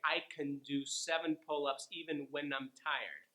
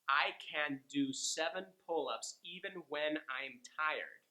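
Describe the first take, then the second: First: It is said fast with reduced vowels. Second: It is said slowly with full vowels.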